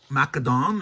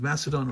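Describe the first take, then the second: First: It is said with Greek-style sounds. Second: It is said with everyday English sounds.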